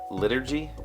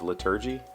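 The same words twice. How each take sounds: First: The stress is on the first syllable. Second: The stress is on the second syllable.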